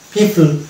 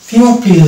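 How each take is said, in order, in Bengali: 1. প্রথম সিলেবলটি একটি সাধারণ 'pee' ধ্বনি। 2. প্রথম সিলেবলে একটি 'pyoo' ধ্বনি আছে। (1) "এটাকে উচ্চারণ করবো পিপল" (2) "পিউপিল না"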